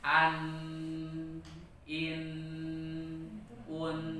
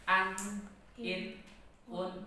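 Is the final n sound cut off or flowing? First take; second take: flowing; cut off. First: The n sound keeps flowing on. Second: The n sound is stopped abruptly.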